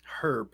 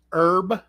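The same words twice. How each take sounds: First: "Herb" with a clear H, said softer; sounded H herb. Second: "herb" said as erb, no H; silent H herb. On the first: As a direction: pronounce the H in "Herb". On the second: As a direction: drop the H in "herb". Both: Shown as a demonstration. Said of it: "Not herb".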